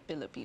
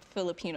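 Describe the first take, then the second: First: It is said in a Filipino accent. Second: It is said in a plain American accent.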